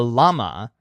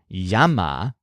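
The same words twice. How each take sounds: First: The word is pronounced with an English accent. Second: The word is pronounced with a Spanish accent. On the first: "pronounced the English way" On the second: "which is how you'd pronounce it in Spanish"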